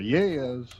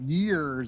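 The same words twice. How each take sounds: First: The r sound at the end is dropped. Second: The r sound at the end is pronounced. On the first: "instead of like R's, you say like is" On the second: "instead of years"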